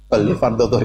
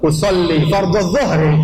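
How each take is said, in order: First: It is said quietly, almost under the breath. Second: It is said loudly, in a full voice.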